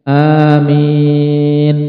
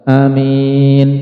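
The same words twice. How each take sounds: First: Both vowels are drawn out long. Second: The first vowel is short. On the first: "dengan mad, yaitu memanjangkan hamzah dan mimnya" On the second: "dengan qasar, yaitu tanpa memanjangkan hamzah"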